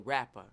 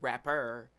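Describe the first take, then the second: First: The word ends with an open 'ah' sound. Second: The word is said like 'rapper'. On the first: The speaker calls it right. "we say Rapha" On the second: The speaker calls it wrong. "we don't say rapper"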